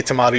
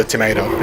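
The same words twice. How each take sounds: First: Tomato with a long "ah", tuh-MAH-toh; British-style pronunciation. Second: Tomato with an "ay", tuh-MAY-toh; American-style pronunciation. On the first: Player showing how he says it, tomato as tuh-MAH-toh. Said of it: "I say tomato". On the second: Player showing how others say it, tomato as tuh-MAY-toh. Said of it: "you say tomato". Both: Shown as a demonstration.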